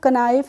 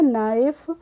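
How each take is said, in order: First: The word starts with a k sound. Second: The word starts with an n sound. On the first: The speaker calls it wrong. "हम इसको कनाइफ नहीं पढ़ते" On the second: The speaker calls it right. "पढ़ते हैं नाइफ"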